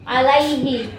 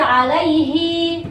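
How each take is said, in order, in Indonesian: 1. Vokal akhirnya tetap pendek. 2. Vokal akhirnya dipanjangkan. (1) "ini pasti nggak panjang, karena apa? Ada sukun" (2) "jangan dibaca alaihi, enggak"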